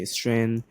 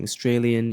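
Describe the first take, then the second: First: Australian elided to "Astrayn", middle syllable swallowed; broad Aussie elision. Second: Said in the usual way. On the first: Shown as a demonstration. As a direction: squash Australian into two syllables, "Strayn". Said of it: "instead of saying Australian, you say". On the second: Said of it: "instead of saying Australian".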